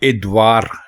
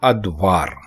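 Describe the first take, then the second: First: The word begins with an i sound. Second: The word begins with an a sound. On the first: The speaker calls it wrong. "ये गलत है" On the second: The speaker calls it right. "दुरुस्त होगा अदवार"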